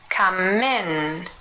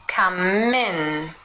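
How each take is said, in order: First: The m runs into in, like min. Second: The m runs into in, like min.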